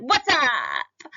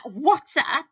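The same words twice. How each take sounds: First: Sudden loud, casual street greeting; casual slang. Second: Louder, higher casual greeting; casual slang. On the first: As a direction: drop the teacher voice and go slangy. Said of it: "what if I suddenly went". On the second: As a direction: throw it out slangy and loose. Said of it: "So that". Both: Shown as a demonstration.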